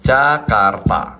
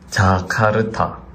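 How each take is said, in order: First: It is said with a native Indonesian accent. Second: It is said with a Korean accent. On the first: "Kita bacanya gimana?" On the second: "Kalau dilogatin Korea, jadinya kayak gini"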